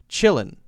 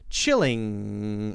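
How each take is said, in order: First: The word ends with a front 'n' sound. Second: The word ends with a back 'ng' sound. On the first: "my mouth is relaxed" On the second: "I'm smiling wider, right? And the back of my tongue is pushed up"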